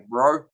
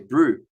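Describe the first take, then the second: First: The vowel sounds like 'oh'. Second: The vowel sounds like 'oo'. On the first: "here in New Zealand, we say bro" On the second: "You say it with a U rather than an O"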